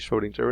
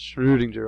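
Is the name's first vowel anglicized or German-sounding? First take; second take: anglicized; German-sounding. First: The first vowel has a plain English sound. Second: The first vowel has a rounded, German umlaut sound. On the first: "although we can just say Schrödinger" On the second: "you pronounce it with sort of a guttural tone to the, the vowel"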